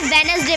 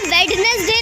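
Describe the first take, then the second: First: The first d sound is left silent. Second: The first d sound is clearly pronounced. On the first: The speaker calls it right. "हम इसे वेनसडे पढ़ेंगे" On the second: The speaker calls it wrong. "हम इसे वेडनेसडे नहीं पढ़ेंगे"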